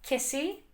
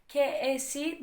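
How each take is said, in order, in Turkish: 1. İki kelime tek bir kelimede birleşir. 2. İki kelime ayrı ayrı söylenir. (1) "Birleştiririz Yunanca'da bunu" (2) "ke esi demeyiz"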